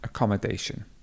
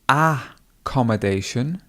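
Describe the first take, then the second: First: The main stress is near the middle. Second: The main stress is not near the middle. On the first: The speaker calls it right. "the stress would be over the A" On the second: The speaker calls it wrong. "accommodation is probably not the correct stress"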